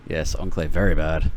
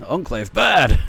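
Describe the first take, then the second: First: Said in the usual way. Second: Loud, blunt caveman grunt; caveman talk. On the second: Pretend. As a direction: say it like a dumb brute. Caveman-style game reference.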